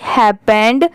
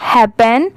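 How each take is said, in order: First: हैपेंड with a clear final d; हैपेंड, the ed sounding as a d; pronounced happened. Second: हैपन with no d at the end; हैपन, plain n ending, no ed; pronounced happen. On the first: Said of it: "तो वो wrong होगा". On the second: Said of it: "इसलिए इसे हम क्या पढ़ेंगे". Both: Shown as a demonstration.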